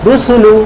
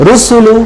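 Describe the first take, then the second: No difference in how they are said.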